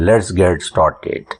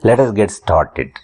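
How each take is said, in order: First: 'Let us' is joined into one short syllable. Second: 'Let us' is said as two full words.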